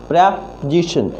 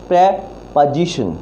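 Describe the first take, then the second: No difference in how they are said.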